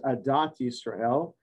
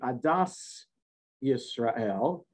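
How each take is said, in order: First: The first word ends with a t sound. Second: The first word ends with an s sound. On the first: This is the modern pronunciation. "the modern Hebrew way of pronouncing it" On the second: This is the older traditional pronunciation. "in the older way, it would be Adas Yisrael"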